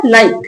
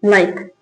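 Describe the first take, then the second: First: Said in the usual way. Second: Soft repeat. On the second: Shown as a demonstration. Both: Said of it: "जैसे ये क्या लिखा है".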